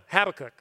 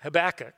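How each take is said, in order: First: "Habakkuk" as HAB-uh-kuk, first syllable stressed; habitual pronunciation. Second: "Habakkuk" as huh-BACK-uh, middle stress; old mistaken pronunciation. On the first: Preacher correcting himself to his old way, front-stressed. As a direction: hit the HAB in "Habakkuk", short last syllable. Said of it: "the way I used to say it". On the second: Preacher fumbling how he used to say it, middle-stressed. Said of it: "I used to say". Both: Shown as a demonstration.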